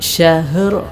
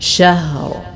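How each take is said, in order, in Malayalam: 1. h ശബ്ദത്തിന് ചെറിയ ഒരു കുതിച്ചുചാട്ടമുള്ള വിടൽ ഉണ്ട്. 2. h ശബ്ദത്തിന് കുതിച്ചുചാട്ടമുള്ള വിടൽ ഇല്ല. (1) "ഹായിൽ അല്പം കൽക്കല അഥവാ ചലനശബ്ദം എന്ന ആ സിഫത്ത് നൽകിക്കൊണ്ട്" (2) "ഇങ്ങനെയാണ് ഓതേണ്ടത്"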